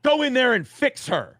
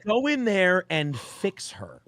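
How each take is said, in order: First: Higher, louder barked order; imitating Nick. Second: Slow, deliberate repeat of the order; slow deadpan repeat. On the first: Nick pointing at him, a higher louder mock order. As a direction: bark the command at him. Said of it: "he goes". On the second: Retold or imitated. Repeating Nick's order for the hosts, slow and deadpan. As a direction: drawl it out, savouring the absurdity.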